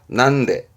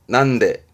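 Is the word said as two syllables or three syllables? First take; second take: two syllables; two syllables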